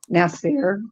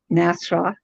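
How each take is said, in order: First: The name ends with an 'eer' sound. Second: The name ends with an 'ah' sound. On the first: The speaker calls it right. "It's Nasir" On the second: The speaker calls it wrong. "I call him Nasra because I could never say it right"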